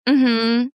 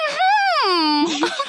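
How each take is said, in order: First: The 'mhm' sounds curt and negative. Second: The 'mhm' sounds warm and pleasant. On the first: The listener hears disapproval. "then people are like, "Oh, she's being negative."" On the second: The listener hears friendliness. "it just sounds so nice"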